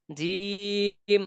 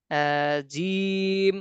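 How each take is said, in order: First: জিম said short, without stretching. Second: জিম stretched long, vowel held; drawn out. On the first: Teacher contrasting the letter's sound, said short. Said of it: "এ যা যে বললাম". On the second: Teacher showing the name of the letter, drawn out. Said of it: "এটা টান দিয়ে পড়েছি". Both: Shown as a demonstration.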